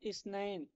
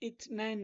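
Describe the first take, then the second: First: The consonant is pronounced as an s sound. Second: The consonant is pronounced as a th sound. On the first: The speaker calls it right. "সা দিয়া" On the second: The speaker calls it wrong. "ইয়ৌমুল ইথনাইন না"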